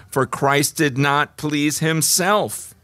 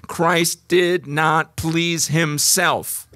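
First: Said in the usual way. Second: Each word laid down slowly; very slow emphasis. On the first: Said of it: "first reading". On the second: Shown as a demonstration. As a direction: spell it out to drive it home. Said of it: "repeated verse slowly".

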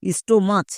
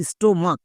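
First: "স্টোমাচ" with final চ in place of k; mispronounced with CH. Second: "স্টোমাক" ending in a hard K; "স্টোমাক" with final ক in place of ch; correct K pronunciation. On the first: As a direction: say "স্টোমাচ" as sto-mach, like church. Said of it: "অনেকে একে ভুল করে চো উচ্চারণ করে". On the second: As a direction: say "স্টোমাক" as sto-mak. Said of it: "হচ্ছে এর সঠিক উচ্চারণ". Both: Shown as a demonstration.

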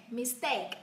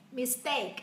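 The two takes are said the same way.

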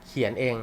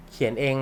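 No difference in how they are said.

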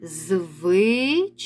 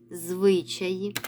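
First: Slow syllables. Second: Said in the usual way. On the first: Shown as a demonstration. Teacher to pupils, slowly sounding out Звичаї. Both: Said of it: "Називаємо перше слово".

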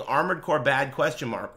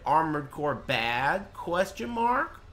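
First: Quick recited quote inside a heated rant; quoting a viewer. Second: Slow, drawn-out quote climbing high on "question mark"; mock quoting. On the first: Retold or imitated. Streamer throws viewer's message back, brisk quoting. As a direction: rattle off the viewer's message, falling on "question mark". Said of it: "you tagging me saying". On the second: Streamer parroting the viewer's tagged message, mock quoting. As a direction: stretch out the viewer's words into an exaggerated question. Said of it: "you tagged me and said".

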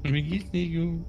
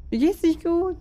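First: Slow eerie echo, higher; creepy ghost voice. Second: Creepy ghost voice. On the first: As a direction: mimic the ghost's creepy line slowly. Friend echoes ghost voice. (gruselige Geisterstimme, langsam) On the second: Ghost voice spoken by player. (gruselige Geisterstimme) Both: Pretend.

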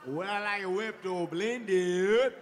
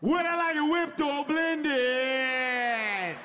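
First: Slow, dazed mumble of the question; nervous repeating. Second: Nervous repeating. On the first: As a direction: murmur it back slowly, still stuck. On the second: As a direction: drag the question out in a panic. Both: Retold or imitated. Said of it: "when I get nervous, I just repeat shit".

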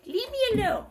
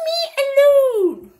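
First: A smaller, high-voiced echo of the complaint; mock protest. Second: Mock protest. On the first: Imitating what she said, high toned-down mock protest. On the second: Imitating what she said, high loud mock protest. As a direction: wail it loudly, half laughing. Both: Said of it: "She said".

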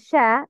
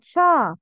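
First: شا as a thin "shae"; light sound. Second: Thick back "a" in شا; heavy sound. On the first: Teacher correcting learners, light شا. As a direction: front "a" in شا. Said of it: "pronounce with light sound". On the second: Teacher showing the mistake, heavy شا. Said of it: "not شا". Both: Shown as a demonstration.

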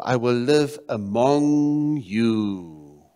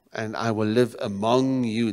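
First: Very slow, with long-held words; drawn-out proclamation. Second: Said in the usual way. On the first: Acted. Preacher voicing God's desire to his people, drawn-out proclamation. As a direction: stretch out "among you" slowly. Dwells on God's promise, then repeats.

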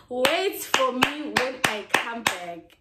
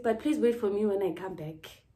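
First: Slow, drawn-out plea. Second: Said in the usual way. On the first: Shown as a demonstration. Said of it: "repeats it slowly, stretched".

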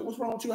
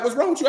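First: Much softer, gentle asking; soft worried question. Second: A lightly voiced exasperated woman, pitched up; mock concerned question. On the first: Retold or imitated. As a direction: ask it quietly, like a worried mother. Mama asks the crying man. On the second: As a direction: toss the question at him, half annoyed. Woman asks her crying man.

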